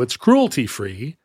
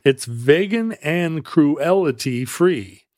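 First: Said in the usual way. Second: Slow, with "cruelty" broken up as crew-ELL-ity; wrong pronunciation. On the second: Pretend. Playing on words in an ad, "cruelty" as crew-ELL-ity. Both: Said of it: "No, it's cruelty free".

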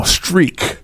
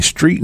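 First: "streak" with a hard k sound ending it; corrected slang pronunciation. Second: Said in the usual way. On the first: Acted. Label man correcting the rapper, "streak" with final k. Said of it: "you mean street? No, streak".

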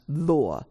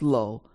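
First: Lo with an open "aw" vowel; Chinese pronunciation of lo. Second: Lo with a plain long English O; English pronunciation of lo. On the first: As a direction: say lo like "law", the Chinese way. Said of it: "but in Chinese, in whichever dialect, it's pronounced lo". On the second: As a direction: say lo to rhyme with go. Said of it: "it's pronounced lo". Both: Shown as a demonstration.

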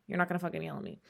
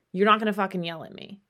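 First: "You're not gonna fucking yell at me" repeated much softer and lower, stress on "not"; quiet warning. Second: "You're not gonna fucking yell at me" pushed out quick and hard, stress on "not"; firm warning. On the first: Setting a boundary with a partner, repeated in a soft steely voice. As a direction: drop it to a low, steely near-hush. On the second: Setting a boundary with a partner, quick firm warning. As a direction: lay down the rule, fast and firm. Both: Shown as a demonstration. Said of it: "it's not fucking happening".

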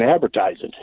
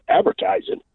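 First: Said in the usual way. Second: ADVERTISING as a high rising question; puzzled query on "Advertising", voice climbing at the end; questioning echo. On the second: Retold or imitated. Other guy queries the answer.

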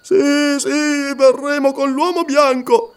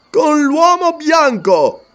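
First: Voce alta e spaventata, balbettata; balbettio tremante. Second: "Con l'uomo bianco" ripetuto lento, molto più alto e forte; furore simulato. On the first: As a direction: cede terrorizzato alla minaccia. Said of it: "balbettò Lascaro tremando". (Lascaro, terrorizzato, balbetta la resa) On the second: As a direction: ribatte con finta rabbia per spaventarlo. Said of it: "simulando un furore". (Umslopogaas finge furore per impressionare il Wakwafi) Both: Acted.

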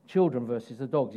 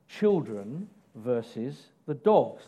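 First: Said in the usual way. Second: Slow, deliberate point title; slow announced heading. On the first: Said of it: "Look at the conversation". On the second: Shown as a demonstration. Preacher announcing the third point, slow and deliberate. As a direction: spell the point out slowly. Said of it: "my next point".

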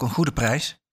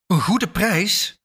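First: Said in the usual way. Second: Slow, higher-pitched disbelieving question; incredulous echo. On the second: A narrator's reading. Buyer echoes the seller's asking terms back at her, incredulous. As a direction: draw out GOEDE in rising disbelief.

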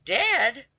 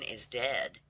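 First: High, loud cry of shock. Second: Said in the usual way. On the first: A narrator's reading. Laundress hearing of the brother's death, shocked cry. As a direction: cry it out, suddenly high and louder. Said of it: "cried the laundress".

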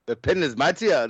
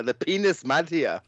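First: Said in the usual way. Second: "penis" said as one word, pee-nis; running words together as a pun. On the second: Shown as a demonstration. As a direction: merge "pen is" into "penis". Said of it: "I can't do an Irish accent".

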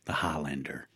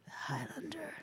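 First: Lower, softer dramatic movie-trailer delivery. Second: Breathy whispered echo of the title. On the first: Host quoting the Highlander film in a lower dramatic voice. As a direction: drop into a solemn film-quote voice. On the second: Co-host echoing the movie title in an awed whisper. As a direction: whisper it back like an awed fan. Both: Acted.

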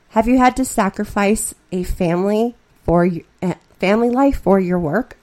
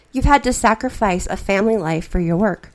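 First: "work" lifted in a questioning rise; corrected question with a rising tune; rephrased as a question. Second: Said in the usual way. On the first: Acted. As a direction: turn the statement into a real question, rising at the end. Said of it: "I try again". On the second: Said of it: "That's not a question".

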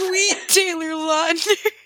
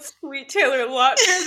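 First: Drawn-out, higher pained exclamation; hammed-up yelp of pain, slowly; mock pained cry. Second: Slow, laughing mock yell; retold yell. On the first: Roommate retelling the other's pained bedpost yelp, mock cry. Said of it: "And you just say". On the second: Friend retelling her own yell after hitting the bedpost, laughing mock yell. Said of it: "I yelled".

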